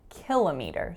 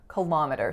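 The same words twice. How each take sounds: First: The stress is on the first syllable. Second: The stress is on the second syllable. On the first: "ki is the winner" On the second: "schwa, winner, schwa"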